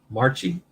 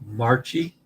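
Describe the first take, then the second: The two takes are said the same way.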